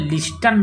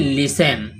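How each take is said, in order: First: The t sound is pronounced in the middle. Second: The t sound is silent in the middle. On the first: The speaker calls it wrong. "यहाँ पर लिस्टन नहीं पढ़ेंगे" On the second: The speaker calls it right. "टी silent हो जाता है"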